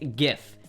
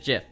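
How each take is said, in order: First: It starts with a hard g sound. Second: It starts with a soft g sound. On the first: The speaker calls it right. "It's GIF" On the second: The speaker calls it wrong. "It's not a giraffe"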